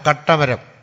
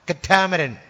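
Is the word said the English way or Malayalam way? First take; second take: Malayalam; English. First: It is said with Malayalam sounds. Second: It is said with English sounds.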